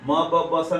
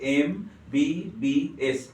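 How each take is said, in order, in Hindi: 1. हर अक्षर को केवल व्यंजन की ध्वनि के रूप में पढ़ा जाता है। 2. हर अक्षर को उसके पूरे अक्षर-नाम से पढ़ा जाता है। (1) "म ब ब सा नहीं बोलते हैं" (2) "क्या बोलेंगे, एम बी बी एस"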